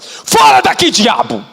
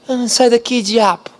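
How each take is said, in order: First: It is shouted forcefully and commandingly. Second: It is said softly and meekly, like petting.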